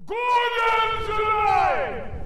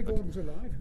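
First: It is said louder, with more force. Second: It is said at normal volume.

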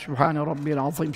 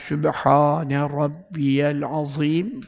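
First: The phrase is recited quickly and briskly. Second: The phrase is recited slowly and drawn out. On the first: This is the prescribed way to recite it. The speaker calls it right. "Tesbihatta hızlı okumak sünnettir" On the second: This is not the prescribed way to recite it. The speaker calls it wrong. "bu sünnet değil"

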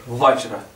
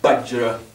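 First: The word begins with a W sound. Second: The word begins with a hard B-like sound. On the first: "il y en a d'autres qui mettent W" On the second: "vont dire Bajra. Parce qu'ils percutent le V"

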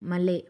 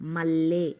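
First: The l sound is short and single. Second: The l sound is long and doubled. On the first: It has no meaning. The speaker calls it wrong. "ఒత్తి పట్టి చదవకపోతే ఎలా ఉంటుందో చూడండి" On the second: It is a meaningful word. The speaker calls it right. "వత్తి పట్టి పలికి చదివితేనే దానికి ఒక మీనింగ్ అనేది వస్తుంది"

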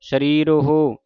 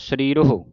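First: The final vowel is drawn out long. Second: The final vowel is said short and quick. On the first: The speaker calls it wrong. "ਜੇ ਹੋੜਾ ਹੈ ਫਿਰ ਲਮਕਾ ਕੇ ਉਚਾਰਨ ਹੋਵੇਗਾ" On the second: The speaker calls it right. "ਜੇ ਔਂਕੜ ਹੈ ... ਜਲਦੀ ਦੇ ਨਾਲ ਔਂਕੜ ਦੀ ਆਵਾਜ਼ ਉਚਾਰਨ ਹੁੰਦੀ ਹੈ"

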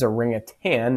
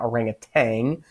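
First: The word ends in a plain 'tan' sound. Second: The word ends in a 'tang' sound. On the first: The speaker calls it right. "it is orangutan" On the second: The speaker calls it wrong. "not orangutan. We sometimes pronounce that incorrectly"

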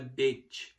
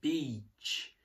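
First: The vowel is said short. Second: The vowel is said long. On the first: The speaker calls it wrong. "não é beach" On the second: The speaker calls it right. "o I é longo"

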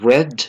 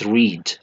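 First: The vowel is short, like in 'bed'. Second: The vowel is long, like in 'seed'. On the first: It is the past tense form. The speaker calls it right. "this is verb 2. This is read" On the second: It is the present tense form. The speaker calls it wrong. "not read"

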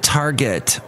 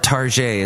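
First: The word is said the plain English way. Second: The word is said with a mock French sound.

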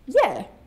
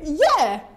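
First: It is said easily, without effort. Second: It is pushed out with great effort.

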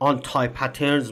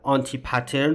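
First: The word anti ends with an eye sound. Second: The word anti ends with an ee sound.

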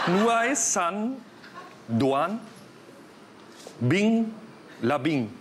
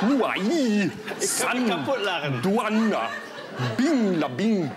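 First: It is said with a plain German-sounding accent. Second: It is said with a more Vietnamese-sounding accent.

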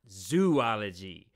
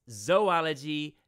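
First: The first vowel is an oo sound. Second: The first vowel is a long O sound. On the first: The speaker calls it wrong. "not zoology. If it were zoology, there'd need to be an extra O in there" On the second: The speaker calls it right. "please pronounce it with a long O sound"

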